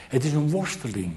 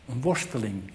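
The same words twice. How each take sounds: First: Said in the usual way. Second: Quieter, reflective repeat of worsteling; hushed echo of the point; soft echo. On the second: Shown as a demonstration. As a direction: let worsteling sink in softly.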